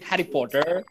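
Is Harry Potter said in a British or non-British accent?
non-British. It is said in a non-British accent. The speaker calls it wrong. "They don't say Harry Potter"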